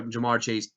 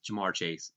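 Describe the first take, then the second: First: "Ja'Marr Chase?" asked as an open question, voice left hanging; asking tune. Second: "Ja'Marr Chase." said softer with a firm falling close; quiet, certain verdict; settled answer. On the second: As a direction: answer your own question, "Ja'Marr Chase", decided. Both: Shown as a demonstration.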